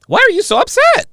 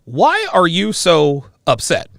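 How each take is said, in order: First: High, loud, mocking squeal; mocking high quote. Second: Slow quoted question. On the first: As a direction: mimic her shrill question, much higher. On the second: Retold or imitated. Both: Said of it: "she asks me".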